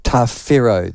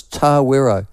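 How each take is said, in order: First: Tawero with an f sound, tah-FEH-roh; F pronunciation. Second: Tawero with a plain w sound, tah-WEH-roh; local pronunciation. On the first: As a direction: say Tawero with f as the outsiders do. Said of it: "pronounced it as F". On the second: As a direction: say Tawero the old Wanganui way with w. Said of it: "They've put that horrible W H". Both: Shown as a demonstration.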